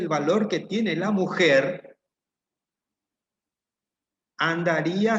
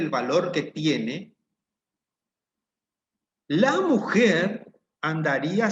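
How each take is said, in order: First: The pause falls after the word 'mujer'. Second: The pause falls after the word 'tiene'. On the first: The man would go looking for the woman. "Ese es un sentido de la oración" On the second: The woman would go looking for the man. "Cambiemos ahora la puntuación"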